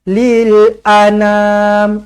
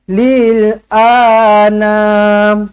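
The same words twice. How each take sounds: First: The vowel after 'lil' is kept short. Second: The vowel after 'lil' is held long. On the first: The speaker calls it right. "A tak panjang. ... Itu yang betul" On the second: The speaker calls it wrong. "Jangan lil anam. Salah"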